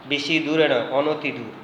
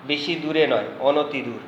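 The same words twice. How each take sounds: The two takes are said the same way.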